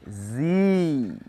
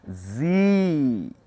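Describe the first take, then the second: First: It is said the American way, like zee. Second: The same.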